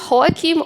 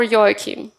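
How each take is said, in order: First: First "Joachim" with an H sound, HO-a-kim; pronunciation check. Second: "Joachim" with a Y sound, YO-a-kim; pronunciation check. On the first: Host checking a guest's name, "Joachim" said with an H. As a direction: say "Joachim" starting with a breathy H, like "Hoakim". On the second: Host offering a guest the other option, "Joachim" said with a Y. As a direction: say "Joachim" starting like "yo", as "Yoakim". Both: Shown as a demonstration. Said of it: "is it Joachim or Joachim".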